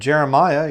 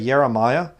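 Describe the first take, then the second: First: The word begins with a J sound. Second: The word begins with a Y sound. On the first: "Instead of" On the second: "you say"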